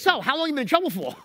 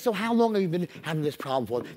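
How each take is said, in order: First: It is said bluntly, without empathy. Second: It is said warmly, with empathy.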